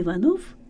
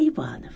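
First: The stress falls on the last syllable. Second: The stress falls on the second syllable. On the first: It is the surname of a commoner, like a janitor. The speaker calls it wrong. "надо говорить не Иванов" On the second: It is the surname of a nobleman. The speaker calls it right. "а Иванов"

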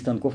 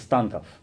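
First: The stress is on the second syllable. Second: The stress is on the first syllable. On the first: The speaker calls it wrong. "не Станков" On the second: The speaker calls it right. "ударение на первом слуге"

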